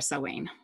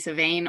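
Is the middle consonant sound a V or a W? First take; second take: W; V. First: The middle consonant is pronounced as a W. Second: The middle consonant is pronounced as a V. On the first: This is how it is said in another part of Ireland. "depending on which part of Ireland you're from" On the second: This is how it is said in one part of Ireland. "the M-H makes a V or a W sound"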